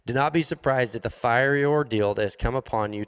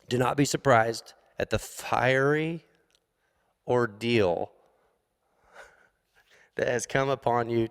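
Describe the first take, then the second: First: It is read plainly, straight through without breaks. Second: It is read dramatically, broken up with pauses.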